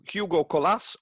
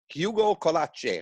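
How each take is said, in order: First: The surname is said in a plain English way. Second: The surname is said in an Italian-sounding way. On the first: The speaker calls it wrong. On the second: The speaker calls it right.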